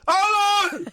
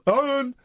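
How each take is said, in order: First: The name is said in a higher-pitched put-on voice. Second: The name is said in a lower-pitched put-on voice. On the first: The speaker calls it right. "He's got a higher pitched voice, actually" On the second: The speaker calls it wrong. "I'm doing his voice"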